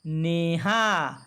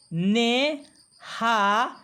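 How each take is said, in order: First: "neha" joined, slow and falling; "neha" blended. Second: "ne", "ha" as separate stretched syllables; "neha" split up. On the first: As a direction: blend "neha" into one drawn-out word. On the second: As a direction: spell "neha" out slowly, pausing between syllables. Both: Shown as a demonstration. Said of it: "बारी बारी से पढ़ने का अभ्यास करेंगे".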